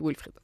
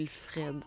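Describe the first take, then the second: First: The last syllable sounds like 'frid'. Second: The last syllable sounds like 'fred'. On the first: This is how a relative's name is said. "Je vais l'appeler Wilfrid" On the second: This is how the written name might be said. "je sais pas si ça se dit Wilfred"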